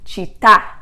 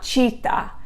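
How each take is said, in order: First: The stress is on the last syllable. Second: The stress is on the first syllable. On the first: The speaker calls it right. "the accent is written on the last syllable" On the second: The speaker calls it wrong. "They always want to say the accent on the first syllable"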